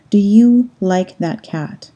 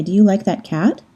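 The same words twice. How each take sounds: First: Said in the usual way. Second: "Do you like that cat?" with English rising question tune; "cat?" lifted at the end like a real question; question intonation. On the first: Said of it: "translates to". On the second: Shown as a demonstration. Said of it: "you can hear that it's a question because of how my voice sounded".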